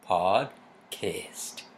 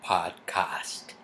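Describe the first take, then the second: First: It is said with an American pronunciation. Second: It is said with a British pronunciation. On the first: The speaker calls it right. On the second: The speaker calls it wrong.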